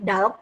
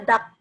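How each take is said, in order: First: An l sound is heard before the k. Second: No l sound is heard before the k. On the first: The speaker calls it wrong. "bukan dalk gitu" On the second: The speaker calls it right. "tapi cuma dak"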